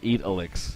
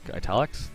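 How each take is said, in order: First: The first syllable sounds like 'eat'. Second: The first syllable sounds like 'it'. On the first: The speaker calls it wrong. "It's not eat elix" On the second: The speaker calls it right. "like italics, like that"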